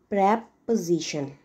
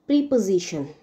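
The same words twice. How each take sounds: First: It is pronounced the way the noun is. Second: It is pronounced the way the verb is. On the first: It names a part of speech. "When it is used as a noun, the pronunciation is preposition" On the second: It means to place something before something else. "When it is used as verb"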